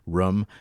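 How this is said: The word is said with a Vermont accent. This is how the speaker naturally talks. "little bit of a Vermont, Vermont accent. Like I say room"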